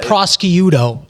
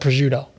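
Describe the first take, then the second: First: The word is pronounced in a distorted, nonstandard way. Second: The word is pronounced in the usual standard way. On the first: The speaker calls it wrong. "mispronounces words. So he'll call, he'll call it prosciutto" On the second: The speaker calls it right. "instead of prosciutto"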